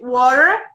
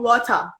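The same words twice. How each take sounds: First: It is said with an American accent. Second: It is said with a British accent. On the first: "inglês uh, americano" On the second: "quando a gente tá falando do inglês britânico"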